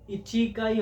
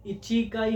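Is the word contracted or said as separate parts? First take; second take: separate; separate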